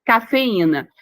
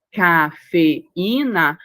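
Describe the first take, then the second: First: Said in the usual way. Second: Cafeína drawn out very slowly, each syllable ca-fe-í-na pulled apart; syllables split apart. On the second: Shown as a demonstration. Teacher splitting Cafeína into syllables for the class, very slow. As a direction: stretch Cafeína into its separate syllables. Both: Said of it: "Quando faz a separação de cafeína".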